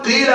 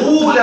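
First: The first vowel is a pure "ee" sound. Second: The first vowel is a pure "oo" sound. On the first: This is the original and most eloquent dialect form. "كسرت الفاء كسرا خالصا فقلبت الالف ياء" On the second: This is a second, less standard dialect form. "ضمت الفاء ضما خالصا تاما، وقلبت الالف واوا"

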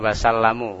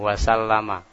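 First: The word ends in a 'u' vowel. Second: The word ends in an 'a' vowel. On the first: The speaker calls it wrong. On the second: The speaker calls it right.

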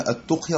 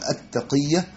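First: The first vowel is u, with no vowel after q. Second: The first vowel is a, then qi with doubled y. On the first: The speaker calls it wrong. "يقولها بضم التاء وسكون القاف" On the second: The speaker calls it right. "الصحيح أنها التقية، التاء مفتوحة والقاف مكسورة والياء مشددة"

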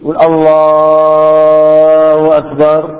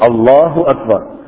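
First: The phrase is stretched out too long. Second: The phrase is said at a normal, short length. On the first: The speaker calls it wrong. "ولا يمد كثير" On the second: The speaker calls it right. "الطبيعي"

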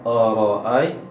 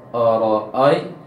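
Both takes have the same delivery.

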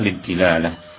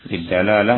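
First: The vowel after the d is i. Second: The vowel after the d is a. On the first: "sebagian mengatakan kasrah" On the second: "sebagian mereka mengatakan fath ad-dalalah"

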